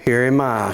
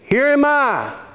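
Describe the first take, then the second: First: It is said in a calm, flat tone. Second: It is said in an eager, excited tone. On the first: A plain, ordinary reply. The speaker calls it wrong. "I read that the way we always read it" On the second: The speaker is eager to be chosen. The speaker calls it right. "Here am I with an exclamation mark"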